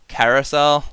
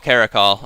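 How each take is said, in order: First: The word ends with a 'sel' sound. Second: The word ends with a 'cal' sound. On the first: The speaker calls it wrong. "it's not Carousel" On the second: The speaker calls it right. "Oh, Caracol. Okay, fair enough"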